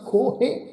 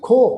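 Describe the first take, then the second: First: The word ends with an added -he syllable. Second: The word ends on a plain long vowel. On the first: The speaker calls it wrong. "ਇਸ ਢੰਗ ਨਾਲ ਨਹੀਂ ਕਰਨਾ" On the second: The speaker calls it right. "ਉਚਾਰਨ ਕਰਾਂਗੇ ਜੀ ਖੋ"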